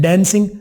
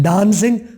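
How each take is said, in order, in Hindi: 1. पहला स्वर सपाट 'a' वाली आवाज़ है। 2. पहला स्वर खुली 'ah' वाली आवाज़ है। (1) "डांसिंग अमेरिकन" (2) "डांसिंग ब्रिटिश वाले बोलते हैं"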